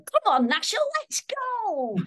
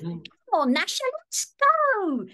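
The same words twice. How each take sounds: First: High, excited Cockney cartoon boy; Cockney Dennis. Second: High, loud northern English cartoon boy; northern English Dennis. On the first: Actor demonstrating the first Dennis voice, high Cockney call. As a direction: call out eagerly in a Cockney accent. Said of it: "with a bit of a Cockney accent". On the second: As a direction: stretch it out in a northern English accent. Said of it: "wanted Dennis to have a northern accent". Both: Shown as a demonstration.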